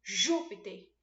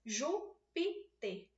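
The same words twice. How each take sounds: First: "Júpiter" with a louder, punched JÚ; stress on first syllable. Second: "Júpiter" very slowly split as Jú-pi-ter; syllable by syllable. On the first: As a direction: hit the JÚ of "Júpiter" hard, then fall away. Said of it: "Mas é no ju". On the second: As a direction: pause after each syllable of "Júpiter". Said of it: "eu tenho três sílabas". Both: Shown as a demonstration.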